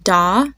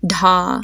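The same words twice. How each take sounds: First: "da" with a light d, little air; plain d in "da", no h sound; unaspirated "da". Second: "dha" with a strong puff of air after the d; airy d-h onset in "dha"; aspirated "dha". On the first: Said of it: "and D H A". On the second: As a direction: breathe an h out through the d of "dha". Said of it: "when you pronounce the letter H". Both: Shown as a demonstration.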